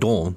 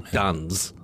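First: The final S is silent. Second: The final S is sounded. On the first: The speaker calls it right. "Like you're saying dans" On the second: The speaker calls it wrong. "I would say dans. ... That's not right, is it?"

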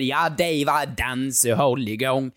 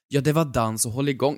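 First: It is said in a southern Skåne accent. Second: It is said in a Stockholm accent. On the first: It sounds like a folksy old accordion player. The speaker calls it right. "en farbror med dragspel som säger" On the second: The joke character would be lost. The speaker calls it wrong. "Hade han kört den på stockholmska"

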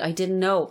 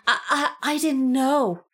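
First: It is said smoothly without repetition. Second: It is said with a repeated stammering I.

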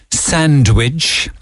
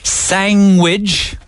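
First: It has a d sound, like 'sandwich'. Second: It has a g sound, like 'sangwich'.

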